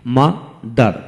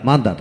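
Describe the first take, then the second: First: mother slowly split into two beats; a clear gap between the syllables of mother. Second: Said in the usual way. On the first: Shown as a demonstration. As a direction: sound out mother in two parts. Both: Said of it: "যে ওয়ার্ডে দুটি syllable থাকে".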